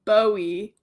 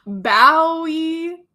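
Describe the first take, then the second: First: Bowie said the US way, like boo-ey. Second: Bowie said the UK way, like bow in bow tie. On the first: Reader contrasting the American way of saying Bowie. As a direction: give Bowie its American vowel. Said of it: "[name] in U S A". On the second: Reader sounding out the UK way of saying Bowie. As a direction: give Bowie its UK vowel. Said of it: "[name] in U K accent". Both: Shown as a demonstration.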